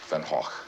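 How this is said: The name is said the Dutch way. "the proper Dutch pronunciation is"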